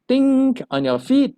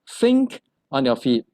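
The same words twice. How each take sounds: First: Think begins with a plain t sound. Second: Think begins with a soft th sound. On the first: The speaker calls it wrong. "So it's not" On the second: The speaker calls it right.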